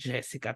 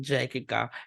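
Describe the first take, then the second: First: The middle consonant is an s sound. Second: The middle consonant is a k sound. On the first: It is the real name. "ang totoong pronunciation ng pangalan niya ay Jessica" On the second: It is a playful nickname. "ako talaga yung nagtatawag sa kanya ng Jekika"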